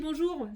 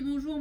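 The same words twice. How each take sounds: First: The greeting sounds confident and energetic. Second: The greeting sounds hesitant and low in energy. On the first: The coach inspires confidence. The speaker calls it right. "Si je me tiens comme ça" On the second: The coach does not inspire confidence. The speaker calls it wrong. "je sais pas si je suis très stimulante"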